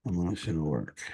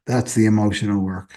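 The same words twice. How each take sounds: First: Lower, softer repeat to herself; soft echo. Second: Said in the usual way. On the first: Shown as a demonstration. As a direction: let the phrase sink in quietly. Quiet echoed repeat of phrase.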